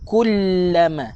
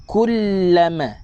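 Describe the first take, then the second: The two takes are said the same way.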